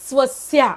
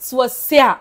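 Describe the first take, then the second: First: The word ends with only a brief breath out. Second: The same.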